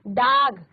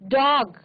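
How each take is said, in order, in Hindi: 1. स्वर एक सामान्य लंबा 'aa' ध्वनि है। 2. स्वर एक खुला गोलाकार 'aw' ध्वनि है। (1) "डाग नहीं बोलना है" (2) "अर्धचंद्राकार मात्रा है उसके साथ उच्चारण करना है"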